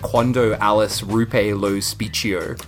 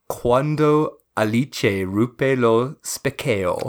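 First: It is read letter by letter as English spelling. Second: It is said with an attempted Italian pronunciation. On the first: "if I'm just reading it as it's written" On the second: "you ready to hear me butcher some Italian again?"

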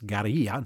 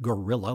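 First: The word is said with a Spanish-like pronunciation. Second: The word sounds like the English animal name. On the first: The speaker calls it right. "it's guerrilla" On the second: The speaker calls it wrong. "not gorilla like Mighty Joe Young"

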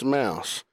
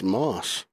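First: The vowel is an 'ow' glide like mouse. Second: The vowel is a short 'aw' like moss. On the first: The speaker calls it right. "it's pronounced mouse" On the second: The speaker calls it wrong. "it's pronounced Moss"

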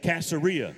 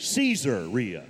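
First: The start does not sound like 'Caesar'. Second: The start sounds like 'Caesar'. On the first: The speaker calls it wrong. "you don't say Caesarea" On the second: The speaker calls it right. "it's Caesarea, because it's Caesar"

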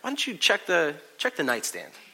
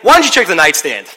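First: The tone is gentle and sympathetic. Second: The tone is annoyed and exasperated. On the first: The speaker feels sorry and wants to help. "Juby never loses her phone, and I feel bad for her" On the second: The speaker is fed up with the repeated problem. "Juby always loses her phone, and it's ridiculous, and I'm tired of it"

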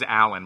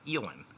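First: The first vowel is the open 'a' of cat. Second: The first vowel is raised toward the 'e' of bet. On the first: This is how the name is meant to be said. The speaker calls it right. "His name's Alan" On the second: This is how people from upstate New York say it. The speaker calls it wrong. "but they pronounce it Elon"

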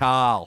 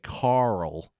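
First: The name is said without an r sound. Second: The name is said with an r sound. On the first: "and not Carl" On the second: "Americans say Carl"

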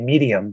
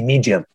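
First: It is said in a standard American accent. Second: It is said in a Florida accent. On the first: "they don't say medium" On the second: "in Florida, ... they say medium"

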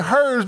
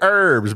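First: The word begins with an h sound. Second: The word begins without an h sound. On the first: The speaker calls it right. "we say herbs because there is a effing H in it" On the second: The speaker calls it wrong. "the way Americans say herbs"

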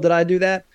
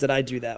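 First: It is said in an exaggerated Urkel voice. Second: It is said subtly, with little exaggeration.

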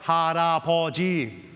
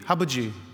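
First: The middle 'ra' syllable is fully pronounced. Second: The middle 'ra' syllable is dropped. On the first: The word is said the adult way. "I'm not sitting there going" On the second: A small child is still learning to talk. "my son would say"

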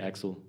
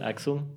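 First: The name is said with an American pronunciation. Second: The name is said with an Austrian pronunciation. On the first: "In the US we would say Axel" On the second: "Is this how you pronounce it in Austria?"

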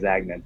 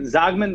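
First: The name is said the American way, with 'a'. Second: The name is said the Dutch way, with 'o'.

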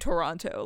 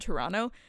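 First: Toronto is said with every syllable clearly. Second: Toronto is said in a clipped, reduced form. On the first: It is the formal way locals avoid. "They don't say Toronto" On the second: It is the casual local way to say it. "they always say it like that"

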